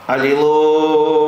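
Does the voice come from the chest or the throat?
throat. The voice is strained and pushed from the throat. The speaker calls it wrong. "Вот так не надо, вы напрягаете голосовую связь"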